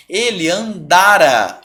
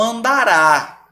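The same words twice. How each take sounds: First: "andara" slow, stress on the middle "da", open final a; "Ele andara", slowly, with the stress on "da". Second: "andará" slow and higher, stress on the final "rá"; "andará", slowly, landing hard on "rá"; stress on the end. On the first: Teacher to students, slowly stressing "andara" on "da". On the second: Teacher to students, contrasting "andará" with the final "rá" stressed. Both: Shown as a demonstration. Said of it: "A sílaba tônica aqui muda tudo".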